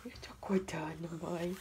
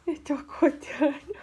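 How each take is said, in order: First: Put-on soft breathy whisper, speaking as the baby. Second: Put-on speaking for the baby in a light higher voice. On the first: Fala pelo bebê sussurrando. (sussurro falando pelo bebê) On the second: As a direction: voice the baby waking up, a bit higher. Repete em voz de bebê. (voz de bebê um pouco mais aguda)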